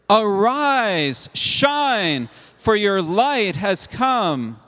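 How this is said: It is said in a solemn, proclaiming prophetic tone.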